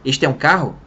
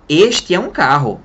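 First: Said in the usual way. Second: Slow, louder, word-by-word classroom drill; slow drill translation. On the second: Shown as a demonstration. Teacher mocking school drills, slow and deliberate. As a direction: spell it out like an old-school teacher. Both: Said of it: "Alguém ensinou português pra você assim?".

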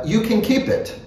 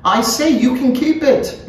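First: Mildly raised character voice, offhand; easy, higher-pitched offer; casual offer. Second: High, emphatic character voice; pointed repetition, much higher-pitched; insistent repeat. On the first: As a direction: offer it lightly, pitched a little up. First, casual offer of paper. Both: A narrator's reading.

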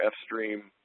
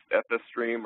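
First: "F stream" with only the letter F before stream; single letter name. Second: "F S stream" with F and S said as separate letter names; letters spelled out. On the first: Host offering a colleague the other option, "F stream" said as ef-stream. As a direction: say "F stream" as ef-stream, no S sounded separately. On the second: Host asking a colleague the right name, "F S stream" spelled as ef-ess-stream. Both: Shown as a demonstration. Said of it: "What's the correct pronunciation?".

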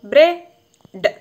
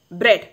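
First: ബ്രെഡ് drawn out very slowly and loud; slow model word. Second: ബ്രെഡ് said short and clipped, falling; one sharp beat on ബ്രെഡ്; quick model word. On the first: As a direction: stretch ബ്രെഡ് so the short e rings. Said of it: "ഇപ്പോഴെങ്ങനെയാണ്". (ബ്രെഡ് നീട്ടി ഉറക്കെ ഉച്ചരിക്കുന്നു) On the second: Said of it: "ഇങ്ങനെയാണ്". (ബ്രെഡ് ചുരുക്കി വേഗത്തിൽ) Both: Shown as a demonstration.

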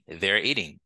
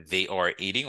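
First: "they're" as one syllable before "eating"; "they're eating", are reduced to an r, falling end; contracted form. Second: "they are" as two words in "they are eating"; uncontracted "they are", rising to "eating"; full form. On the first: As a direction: merge they and are into "they're". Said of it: "on peut dire". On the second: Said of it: "Au lieu de dire they are". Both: Shown as a demonstration.

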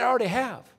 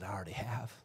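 First: Louder and higher, proclaiming; booming voice from heaven. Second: Soft, low and intimate; hushed voice from heaven. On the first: God's thundering voice answering Jesus, proclaiming loudly. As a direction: thunder it out with authority. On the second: God answering Jesus from heaven, hushed and low. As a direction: say it as a gentle secret. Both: Retold or imitated. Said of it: "But that's not all he said".

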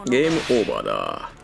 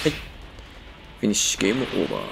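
First: Deep menacing villain declaration; low, ominous game over. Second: Low, quick game over; villain voice. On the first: (低く不気味な悪役の声) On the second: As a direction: drop into a low finishing voice. Villain finish line. (低い声で決め台詞) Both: Acted.

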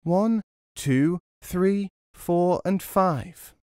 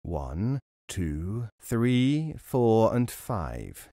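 First: Higher, brighter echo of the count; high little echo of the count; mocking echo. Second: Robber counting. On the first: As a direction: mimic the robber's count from hiding. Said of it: "started to repeat the robber's words". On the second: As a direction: mutter the count over the loot. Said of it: "He began to count". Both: A narrator's reading.

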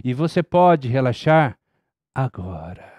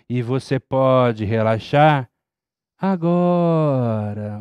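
First: E você pode relaxar agora with agora falling very low; agora dropped low. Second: Agora drawn out slow and set apart; E você pode relaxar agora with agora slow and changed in tone; marked agora. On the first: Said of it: "Eu posso tanto fazer o agora". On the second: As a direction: stretch agora slowly after a pause. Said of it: "o meu tom de voz mudou no agora". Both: Shown as a demonstration.

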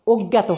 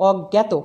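First: অজ্ঞাত with closed "o" first vowel; wrong O form. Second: অজ্ঞাত with open "aw" first vowel; correct natural vowel. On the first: Teacher showing the form to avoid, অজ্ঞাত with closed o. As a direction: say অজ্ঞাত as "og-gato". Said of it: "অজ্ঞাত হবে না". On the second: Teacher giving the correct form, অজ্ঞাত with open aw. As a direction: say অজ্ঞাত as "awg-gato". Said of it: "অজ্ঞাতটা হবে". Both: Shown as a demonstration.

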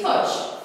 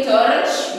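First: 'torch' with no R sound; silent R. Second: 'torch' with the R pronounced; sounded R. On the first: Teacher showing pupils the correct torch, R silent. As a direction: leave the R out of 'torch'. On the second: Teacher showing pupils the wrong torch, R sounded. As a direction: voice the R in 'torch', drawn out and louder. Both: Shown as a demonstration. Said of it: "This is silent".

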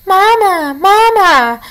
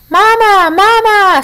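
First: High, small chirping voice from inside an egg; tiny peeping gosling. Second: High, small peeping gosling voice; tiny egg voice. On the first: Unhatched gosling peeping for its mother. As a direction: peep like a newborn gosling. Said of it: "peeped the tiny, muffled voice". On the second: Unhatched gosling calling to the robot it thinks is its mother. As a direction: peep like a chick still in its shell. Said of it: "said the egg". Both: A narrator's reading.

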